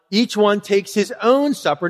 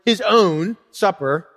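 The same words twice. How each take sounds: First: Said in the usual way. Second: "his own" slowed right down for emphasis; slow, pointed stress on "own". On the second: Shown as a demonstration. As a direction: lean slowly and deliberately on "his own". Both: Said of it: "Notice the emphasis on the word".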